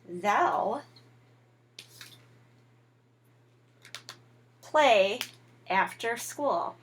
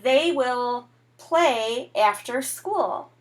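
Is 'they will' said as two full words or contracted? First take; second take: contracted; full. First: It is shortened into one contracted word. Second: Both words are said fully and separately. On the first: "We can change it to they'll" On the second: "like they will play after school"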